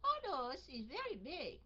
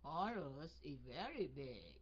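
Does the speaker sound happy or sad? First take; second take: happy; sad. First: The voice sounds happy with raised pitch. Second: The voice sounds sad and subdued. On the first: The speaker feels happy. "mình vui vui, mình lên giọng" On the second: The speaker feels sad. "Thí dụ mình buồn buồn, mình nói"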